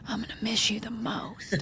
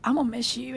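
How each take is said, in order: First: Hushed secret goodbye to the dog; husband's sneaky whispered favorite. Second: Said in the usual way. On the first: Retold or imitated. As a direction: whisper it so the wife won't hear. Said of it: "look at Dude and be like". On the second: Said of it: "He goes".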